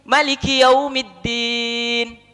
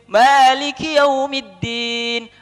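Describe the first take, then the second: First: The first vowel of Maliki is kept short. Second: The first vowel of Maliki is drawn out long.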